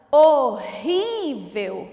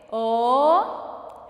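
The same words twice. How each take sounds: First: HORRÍVEL slow and loud, RÍ lengthened; slow word presentation. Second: HORRÍVEL in three beats, HO, RRÍ, VEL; split into syllables. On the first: Teacher introduces a word, HORRÍVEL loud with lengthened RÍ. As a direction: draw out Horrível, long RÍ and falling end. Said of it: "Mais uma palavrinha". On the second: Teacher separating syllables, HORRÍVEL broken into HO, RRÍ, VEL. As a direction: pause after each syllable of Horrível. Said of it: "vamos separar primeiro?". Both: Shown as a demonstration.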